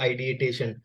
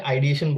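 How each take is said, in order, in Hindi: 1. इस शब्द के अंदर एक अतिरिक्त 'tay' अक्षर है। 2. इस शब्द के अंदर कोई अतिरिक्त 'tay' अक्षर नहीं है। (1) "मैंने उसी को रिपीट किया सुसाइडल आइडिएटेशन" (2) "मुझे आइडिएशन बोलना चाहिए था"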